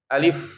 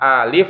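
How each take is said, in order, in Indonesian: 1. Vokal pertama dibaca singkat, satu ketukan. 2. Vokal pertama dibaca panjang, beberapa ketukan. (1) "Tapi alif ya" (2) "bukan alif ya; kalau alif itu panjang tuh"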